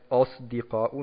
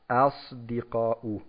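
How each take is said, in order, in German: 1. Der erste Vokal klingt dunkel und o-artig. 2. Der erste Vokal klingt hell und a-artig. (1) "das A zu einem O macht und den Tafrim vom Sad ... auf den Buchstaben davor zieht" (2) "Nein, das ist falsch. Sadiqun, Asdiqa'u. A"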